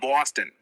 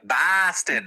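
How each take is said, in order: First: The first vowel is an aw sound. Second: The first vowel is not an aw sound. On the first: The speaker calls it right. "the O syllable is more like aw" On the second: The speaker calls it wrong. "when people make fun of the Boston accent and they'll be like Boston, it's like no, it's not"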